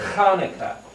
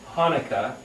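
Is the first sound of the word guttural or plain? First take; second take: guttural; plain. First: It begins with a rough, guttural throat sound. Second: It begins with a plain, soft h sound. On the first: The speaker calls it right. "it's really Hanukkah. It's this guttural sound" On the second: The speaker calls it wrong. "or pronounced Hanukkah"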